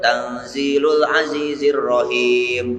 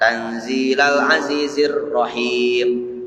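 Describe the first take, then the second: First: The vowel after 'tanzil' is a 'u'. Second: The vowel after 'tanzil' is an 'a'. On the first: The word is the predicate of an implied subject. "Aya nu maca kieu tanzilul azizir rahim. Oh meunang" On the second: The word is the object of an implied verb. "Lamun dibaca tanzila, takdirna ikro tanzila"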